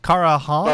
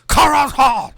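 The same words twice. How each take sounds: First: The name is said softly and tentatively. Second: The name is said harshly, like a curse.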